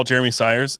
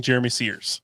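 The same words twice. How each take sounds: First: Said in the usual way. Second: Surname Sears as one "seerz" sound, imitating Siri; Siri's mispronunciation. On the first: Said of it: "if I say, s". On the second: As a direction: say Sears to rhyme with "ears". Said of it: "it says, "Calling Jeremy Sears".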